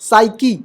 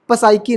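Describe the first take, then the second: First: It starts directly with an s sound. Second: It starts with a p before the s. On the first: The speaker calls it right. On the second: The speaker calls it wrong.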